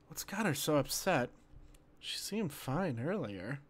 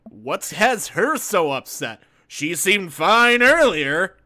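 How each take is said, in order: First: It is said in a sincere tone. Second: It is said in a sarcastic tone.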